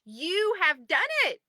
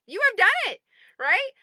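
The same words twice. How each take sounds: First: Said in the usual way. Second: Higher, louder cheer on "done"; excited repeat. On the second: Real, not acted. Repeating the praise to members, excited. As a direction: lift "done" up in triumph.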